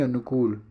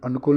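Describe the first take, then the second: First: अनुकूल as "anukool"; correct long oo. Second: अनुकूल as "anukul"; wrong short u. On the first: Teacher corrects the spelling, long "kool" in अनुकूल. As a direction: stretch the last vowel of अनुकूल. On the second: Teacher rejects the spelling, short "kul" in अनुकूल. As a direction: clip the last vowel of अनुकूल. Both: Shown as a demonstration. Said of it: "अनुकूल नहीं".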